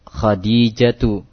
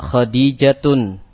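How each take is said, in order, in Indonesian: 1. Kata ini diakhiri dengan vokal tanpa n. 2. Kata ini diakhiri dengan bunyi n tambahan. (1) "tanpa tanwin" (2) "Tidak dibaca Khadijatun"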